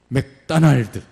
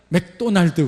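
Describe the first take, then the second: First: The second syllable has an 'ah' vowel. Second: The second syllable has an 'oh' vowel. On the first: This is how Americans say it. "오를 무조건 아 발음하면 되는구나. 오일이 아니라 아일" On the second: This is how Koreans say it. "우리는 맥도날드 그러잖아요"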